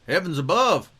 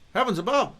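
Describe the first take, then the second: First: It is said in a put-on Texas accent. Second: It is said in the speaker's plain accent.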